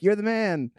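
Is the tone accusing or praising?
praising. It sounds like cheerful, admiring praise. The listener is being congratulated. The speaker calls it wrong. "You said it a little bit like"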